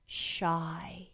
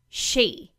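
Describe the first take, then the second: First: The vowel sounds like 'y' in 'sky'. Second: The vowel sounds like 'ee' in 'see'. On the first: "she wants it to be pronounced shy" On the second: "it's not pronounced she"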